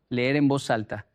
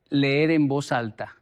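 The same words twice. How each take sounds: The two takes are said the same way.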